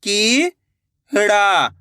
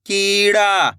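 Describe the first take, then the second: First: "कीड़ा" split into two long syllables. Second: Said in the usual way. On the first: Shown as a demonstration. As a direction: draw out की, pause, then ड़ा in "कीड़ा". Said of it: "एक एक अक्षर का उच्चारण". ("कीड़ा" को तोड़कर, की... ड़ा) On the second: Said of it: "तो मिलके बन जाएगा".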